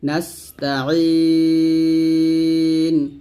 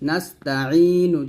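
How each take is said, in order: First: The word ends on a bare n sound. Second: The word ends with a short vowel after n. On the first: The reciter stops at this word. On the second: The recitation continues without a stop.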